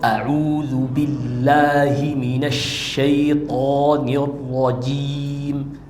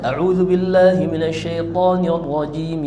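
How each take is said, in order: First: The sounds are articulated in an exaggerated, overdone way. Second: The sounds are articulated in a simple, natural way. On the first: It shows excessive strictness in recitation. The speaker calls it wrong. "nggak harus kayak gitu" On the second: It is a simple, valid recitation. The speaker calls it right. "Simpel aja"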